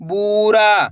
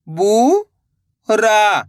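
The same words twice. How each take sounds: First: बूरा joined, long vowels; blended word. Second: बू, long pause, रा; बूरा split slowly, rising then falling; syllable by syllable. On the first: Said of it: "तो मिलके बन जाएगा". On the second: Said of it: "एक अक्षर का उच्चारण करना है". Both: Shown as a demonstration.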